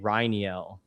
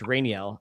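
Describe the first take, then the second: First: The first syllable sounds like "rye". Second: The first syllable sounds like "rain". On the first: The speaker calls it right. "like a rye, like a whiskey" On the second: The speaker calls it wrong. "it's not Rain everyone I keep saying s says Rainiel"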